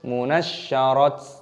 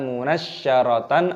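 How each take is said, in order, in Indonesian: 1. Kata itu berakhir dengan bunyi t. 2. Kata itu berakhir dengan bunyi tan. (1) "ataupun munasyarat" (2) "bukan dibaca munasyaratan"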